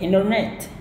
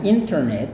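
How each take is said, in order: First: The t after the n is silent. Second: The t after the n is pronounced. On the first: This is the American way of saying it. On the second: This is the British way of saying it.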